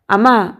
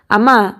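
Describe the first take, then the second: First: Sharp warning cry of అమ్మా; shout. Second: Loud sharp cry of అమ్మా; shout. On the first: Son shouts at his mother to stop. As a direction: bark అమ్మా to stop her. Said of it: "గట్టిగా అరిచాడు Sandeep". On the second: Son shouts at his mother again. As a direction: call అమ్మా hard to stop her. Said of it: "గట్టిగా అరిచి". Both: A narrator's reading.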